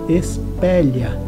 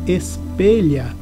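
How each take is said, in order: First: The stressed E vowel is open. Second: The stressed E vowel is closed. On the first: The speaker calls it wrong. "e não" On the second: The speaker calls it right. "som fechado para a vogal E"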